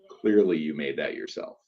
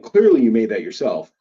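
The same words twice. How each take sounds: First: It sounds dismissive and condescending. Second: It sounds warm and admiring. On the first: The homemade result is being looked down on. The speaker calls it wrong. "you aren't saying it like" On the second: The maker's passion is being praised. The speaker calls it right. "just hype them up"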